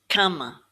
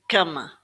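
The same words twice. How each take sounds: Both takes have the same delivery.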